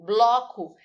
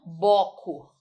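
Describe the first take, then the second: First: The L sound after the B is pronounced. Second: The L sound after the B is dropped. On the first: The speaker calls it right. "Eu falo bloco" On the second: The speaker calls it wrong. "e não boco"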